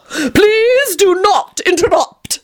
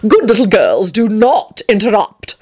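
First: Much higher, very slow, drawn-out Please do not interrupt; haughty vampire calling out to silence everyone; calling out loudly. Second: Said in the usual way. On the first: A narrator's reading. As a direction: call it out theatrically over the room. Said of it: "he called out loudly". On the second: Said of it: "he responded dismissively".

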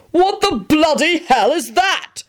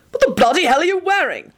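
First: High, slow shocked shriek. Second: High, barked angry question; barking. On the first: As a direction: shriek it in horror. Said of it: "he shrieked". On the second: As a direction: bark it out in disgust. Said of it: "Arthur barked out". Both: Acted.

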